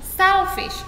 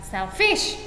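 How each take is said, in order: First: The stress is on the first syllable. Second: The stress is on the second syllable. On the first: The speaker calls it right. "yang ditekan yang pertama nih" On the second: The speaker calls it wrong. "bukan selfish gitu ya"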